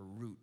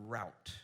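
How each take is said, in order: First: Route said as "root"; pronunciation variant. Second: Route said as "rowt", rhyming with out; pronunciation variant. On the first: Preacher offering the other variant, route said as "root". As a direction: say route with a long "oo" vowel. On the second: Preacher reading a definition aloud, route said as "rowt". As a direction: say route with an "ow" vowel. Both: Shown as a demonstration. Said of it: "however you say that in California".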